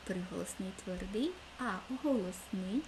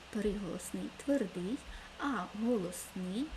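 No difference in how they are said.

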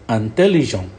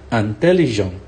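Both takes have the same delivery.

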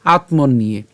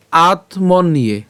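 First: "আত্মন নিয়ে" run together as one word. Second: "আত্মন নিয়ে" slow, split into আত, মন and নিয়ে; broken apart. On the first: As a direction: join "আত্মন নিয়ে" with no gap inside. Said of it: "উচ্চারণ করার সময় একসাথে উচ্চারণটা করব". ("আত্মন নিয়ে" একসাথে জুড়ে) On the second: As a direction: draw "আত্মন নিয়ে" out piece by piece. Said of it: "আমরা ভাঙা ছাড়তে দিয়েছি". ("আত্মন নিয়ে" ধীরে ভেঙে ভেঙে) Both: Shown as a demonstration.

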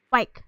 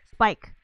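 First: Spike with the opening S dropped; slip on Spike. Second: Said in the usual way. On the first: Real, not acted. Gamer fumbling a word about lag, Spike without its S. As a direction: say Spike as "pike", losing the S. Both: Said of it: "That's what I meant to say".

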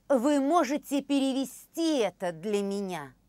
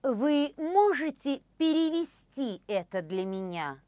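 Both takes have the same delivery.

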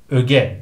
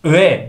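First: ÖGE with a hard g, slowly; correct pronunciation. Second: ÖGE as "öğe", no g heard; wrong pronunciation. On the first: (öge doğru, g ile) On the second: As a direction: say öge as a long ö-e. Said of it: "değil". (öge yanlış, "öğe") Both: Shown as a demonstration.

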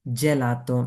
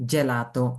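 No difference in how they are said.

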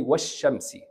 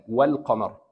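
First: والشمس as "wash-shams", silent L; teacher's model of والشمس with no L; skipped lam. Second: والقمر as "wal-qamar", clear L; lower-pitched model of والقمر, L sounded; pronounced lam. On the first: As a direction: go from wa into a double sh in والشمس. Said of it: "Just skip this lam". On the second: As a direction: let the L ring in والقمر before qamar. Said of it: "Pronounce this lam". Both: Shown as a demonstration.

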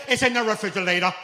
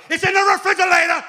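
First: Put-on a touch higher little girl; plain kid retelling; lightly voiced daughter. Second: Put-on much higher, much louder kid shout; mock kid's triumphant announcement; shouted little girl. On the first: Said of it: "My daughter used to say". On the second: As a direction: proudly yell it like a small daughter. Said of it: "Tell everybody".

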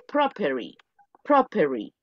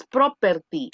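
First: "property" with the T softened to a tap, "prop-er-ee"; corrected "property". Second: "property" with a hard, fully sounded T, "pro-per-tee"; mispronounced "property". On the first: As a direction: glide through "property" without a hard T. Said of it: "No es property". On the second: Teacher showing students the form to avoid, hard-T "property". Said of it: "es property". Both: Shown as a demonstration.

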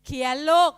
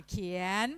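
First: Much louder mock order to a child; loud teacher command. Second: Said in the usual way. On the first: Teacher telling a pupil to write, loud mock command. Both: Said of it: "ให้เด็กเขียนนะคะ".

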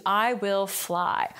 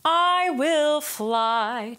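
First: Said in the usual way. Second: Sung slow and high on the same notes; slow sung line. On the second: Shown as a demonstration. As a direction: sing it out on the melody. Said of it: "swap out the text".

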